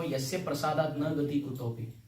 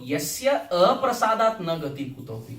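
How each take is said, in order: First: The vowel after yasya is short. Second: The vowel after yasya is long. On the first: By the guru's mercy one goes nowhere. The speaker calls it wrong. "we make this mistake" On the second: Without the guru's mercy one goes nowhere. The speaker calls it right. "There's a longer A there"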